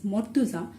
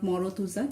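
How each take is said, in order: First: The r closes the syllable with no vowel. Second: An extra o vowel follows the r sound. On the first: The speaker calls it right. "this is Mortuza" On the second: The speaker calls it wrong. "to make it sure that this is actually not Morotuza"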